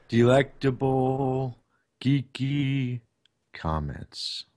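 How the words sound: It is said in a dramatic epic voice.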